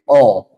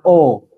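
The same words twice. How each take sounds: First: The vowel is said with flat, unrounded lips. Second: The vowel is said with rounded, pushed-out lips. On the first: The speaker calls it right. "tapi O" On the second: The speaker calls it wrong.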